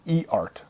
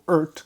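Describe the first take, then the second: First: The letter E is said, then "art". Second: The name is said as one blended word. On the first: The speaker calls it right. "it's actually E ... and then it's actually Art" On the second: The speaker calls it wrong. "as I used to pronounce it up to a week ago"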